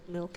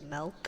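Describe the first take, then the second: First: The vowel is the usual 'ih' sound. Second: The vowel is an 'eh' sound.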